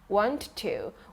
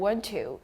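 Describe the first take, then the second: First: It is said slowly and fully. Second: It is said quickly and run together.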